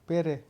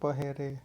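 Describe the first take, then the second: First: The h sound in the middle is dropped. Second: The h sound in the middle is pronounced. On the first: "હનો લોપ છે" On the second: "શિષ્ટરૂપ થશે પહેરે"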